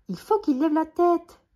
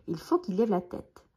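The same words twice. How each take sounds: First: High, loud shout. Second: Said in the usual way. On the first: A narrator's reading. Billy shouts instructions to Jean-Claude, shouting. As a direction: yell it from up in the tree. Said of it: "crie Billy". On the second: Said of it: "pour voir qui a crié".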